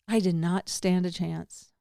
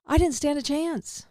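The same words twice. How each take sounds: First: Slow, with "did not" split apart and weighted; stress on NOT. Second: Higher, with "didn't" lifted; first take. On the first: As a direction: spell out "did not" slowly for emphasis. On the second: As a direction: say it up with a lift on "didn't". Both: Shown as a demonstration.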